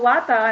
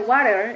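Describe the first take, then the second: First: It is said with a British accent. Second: It is said with an American accent.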